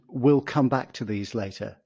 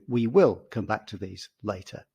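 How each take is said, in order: First: The words 'we will' are contracted together. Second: The words 'we will' are said in full. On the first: "We will can be contracted to will" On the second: "as opposed to"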